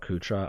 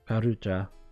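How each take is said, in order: First: The word is clipped, with a middle syllable dropped. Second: The word is said in full, every syllable sounded. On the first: The speaker calls it wrong. "I'm gonna call it Kutra. I know it's wrong" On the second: The speaker calls it right.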